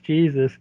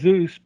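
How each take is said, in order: First: The name is said with an English pronunciation. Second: The name is said with a Spanish pronunciation. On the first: This is how most Americans would read it. "for most people in America, it's Jesus" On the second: This is how the name is really meant. "obviously his first name is Jesus"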